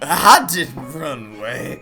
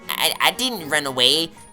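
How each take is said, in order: First: It is read in a slurred, drunken voice. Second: It is read in a plain, sober voice.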